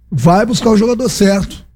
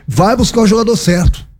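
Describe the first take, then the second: No difference in how they are said.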